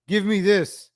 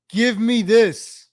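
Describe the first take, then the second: First: Said in the usual way. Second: Slow, louder give me this; drawn-out demand. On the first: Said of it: "repeated demand". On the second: Real, not acted. Demanding the old city back, slow and louder. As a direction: stretch out give me this, leaning on give. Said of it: "repeated demand, slower and louder".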